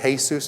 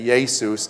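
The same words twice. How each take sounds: First: The name is pronounced the Spanish way. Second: The name is pronounced the Greek way. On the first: "If you're Spanish, you would say" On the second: "I teach Greek and stuff, it's Jesus"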